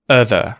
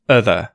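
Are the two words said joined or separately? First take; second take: joined; joined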